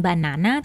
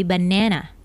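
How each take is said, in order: First: "banana" with an open "nah" in the middle; British pronunciation. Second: "banana" with "neh" in the middle; American pronunciation. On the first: Teacher showing what Americans don't say, "banana" with "nah". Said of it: "bukan banana". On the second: Teacher correcting to the American form, "banana" with "neh". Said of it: "tetapi banana". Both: Shown as a demonstration.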